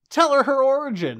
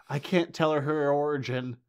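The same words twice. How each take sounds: First: Much higher and louder, urging the mother; frustrated viewer shouting at the mother; exasperated yell. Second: Said in the usual way. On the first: Acted. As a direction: shout at the screen. Yelling at the screen.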